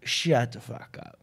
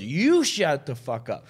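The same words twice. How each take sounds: First: Slow, low, soft command; no-punchline put-down. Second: Slow comeback leaning on "You"; heckler's retort. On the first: Comic tells heckler off from stage, slow low put-down. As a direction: drop the voice and space out each word. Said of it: "No punchline, no". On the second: Drunk heckler answering the comic, slow retort stressing "You". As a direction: throw it back with weight on "You". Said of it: "And he goes". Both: Retold or imitated.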